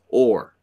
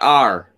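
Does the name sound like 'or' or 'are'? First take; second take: or; are. First: The name sounds like 'or'. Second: The name sounds like 'are'. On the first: The speaker calls it right. "It is Or" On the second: The speaker calls it wrong. "It is not R"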